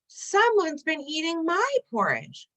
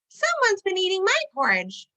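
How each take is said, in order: First: It is said in a crying voice. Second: It is said in a high squeak.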